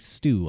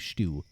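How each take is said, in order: First: The word begins with a plain S sound. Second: The word begins with an SH sound. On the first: "rather than saying stew" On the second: "I say stew"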